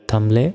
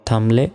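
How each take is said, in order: Both takes have the same delivery.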